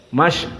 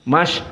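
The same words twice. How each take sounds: The two takes are said the same way.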